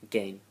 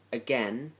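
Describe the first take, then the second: First: "again" said as uh-GAIN, long a like "rain". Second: "again" said as uh-GEN, short e like "ten". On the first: Offering the other way to say the list word, "again" rhyming with "rain". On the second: Reading the accent challenge word list aloud, "again" with a short e like "ten". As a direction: say "again" rhyming with "ten", with a rising tune. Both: Shown as a demonstration. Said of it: "or again".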